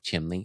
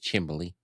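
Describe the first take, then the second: First: The word is said without a b sound. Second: The word is said with a b sound. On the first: "pronunciation of chimney" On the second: "That's the Schuylkill County pronunciation of chimney is chimbley"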